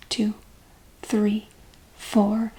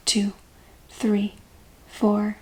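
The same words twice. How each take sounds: The two takes are said the same way.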